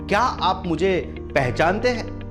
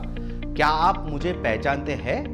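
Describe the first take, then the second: First: The stress falls on the word पहचानते. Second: The stress falls on the last word हैं. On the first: Everyone recognizes me, but do you? "पहचानते, अगर उस पर भार दिया जाए तो कैसे होगा?" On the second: You do recognize me, so why act otherwise? "Last line जो है है उस पर अगर हम भार देंगे"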